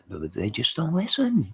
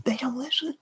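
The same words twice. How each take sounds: First: Said in the usual way. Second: Hushed, breathy whisper of exasperation; voiceless whisper, giving up. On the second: Real, not acted. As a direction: drop to a strained whisper. Repeats line in a whisper.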